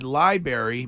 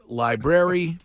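First: LIBRARY said "lie-berry", first r dropped; Massachusetts pronunciation. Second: LIBRARY with both r sounds, "lie-brerry"; standard pronunciation. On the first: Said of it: "because that is a, a masshole pronunciation". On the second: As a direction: sound the r right after the b in library. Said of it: "I'm aware it's pronounced library". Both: Shown as a demonstration.

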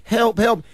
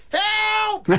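First: Small, contained call for help; mild frog's help. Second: Very high imitation of a toddler's yell; mock scream for help, pitched way up. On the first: Shown as a demonstration. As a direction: say it lightly, like a toy frog. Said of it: "But instead of going". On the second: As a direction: squeal it out like a two-year-old. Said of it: "he's yelling out".

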